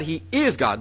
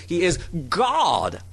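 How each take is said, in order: First: "is" lifted, "God" falling away; stress on is. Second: "God" drawn out and emphasized; stress on God. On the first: Preacher showing the rejected reading, stress on "is". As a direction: punch "is", let "God" drop. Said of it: "It's not that". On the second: Preacher showing what the Greek expresses, stress on "God". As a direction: hold back, then land on a long "God". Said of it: "This is what the Greek expresses". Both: Shown as a demonstration.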